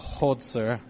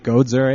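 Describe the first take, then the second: First: The name begins with a deep throaty H sound. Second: The name begins with a hard G sound. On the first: This is how it is really said in Dutch. "it's just a deep hod" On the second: This is an easier version for English speakers. "the way that I'm saying it is a way that it's palatable for people"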